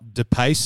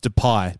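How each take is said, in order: First: The name ends with an s sound. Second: The name ends with a vowel sound. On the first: The speaker calls it wrong. "It's not DePace up front for Lyon" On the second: The speaker calls it right. "it's Depay"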